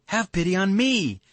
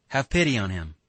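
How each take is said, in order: First: Very high, louder wail on "me"; bitter reproach. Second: Said in the usual way. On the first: A narrator's reading. Katya near tears answering Alyosha, bitterly reproachful. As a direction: throw it back bitterly, pitched way up on "me". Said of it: "with bitter reproach".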